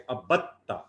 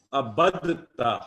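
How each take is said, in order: First: عبدتا with no د, the ب running into a doubled ت, a-bat-taa; عبدتا said as abattaa with the د dropped; assimilated form. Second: عبدتا said slowly with the د clearly sounded, abd-ta; slow careful عبدتا with a full د before the ت; unassimilated form. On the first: Teacher gives the real Arabic form after the predicted one, doubled ت. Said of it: "با جا کے تا سے مل رہا ہے، تشدید بنا کے". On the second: Teacher shows the form the pattern predicts, slow and careful. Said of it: "تو یہ ہونا چاہیے تھا". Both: Shown as a demonstration.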